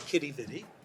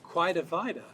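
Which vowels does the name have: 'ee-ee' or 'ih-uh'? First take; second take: ee-ee; ih-uh. First: Both words end in an 'ee' vowel. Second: Both words end in an 'uh' vowel. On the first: It is the more common form, closer to early spellings. "most people say kitty vidi" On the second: It is the local variant heard in the city. "one is quida vida"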